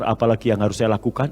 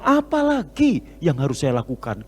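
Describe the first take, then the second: First: It is said flat, like a statement. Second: It is said with a lively question tune.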